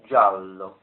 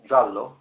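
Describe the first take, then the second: First: It is said with a lengthened vowel before L. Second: It is said quickly with a short vowel. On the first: The speaker calls it right. "we need to lengthen the preceding vowel sound A slightly" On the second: The speaker calls it wrong. "rather than just saying giallo rather quickly, that would be with the one L"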